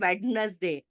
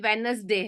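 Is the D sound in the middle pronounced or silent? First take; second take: pronounced; silent. First: The middle d sound is clearly pronounced. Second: The middle d sound is left out. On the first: The speaker calls it wrong. "बहुत सारे लोग इसका उच्चारण ऐसे करते हैं" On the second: The speaker calls it right. "ये वेनसडे है, डी का उच्चारण नहीं होता है"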